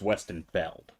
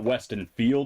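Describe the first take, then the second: First: The last syllable has a short 'e' vowel. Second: The last syllable has a long 'ee' vowel. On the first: The speaker calls it right. "it's Weston Feld" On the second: The speaker calls it wrong. "it's not Weston Field"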